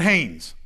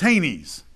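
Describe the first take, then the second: First: The name does not rhyme with Ramses. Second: The name rhymes with Ramses. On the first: The speaker calls it wrong. "It's not Hanes" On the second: The speaker calls it right. "it's Hanes, like Ramses"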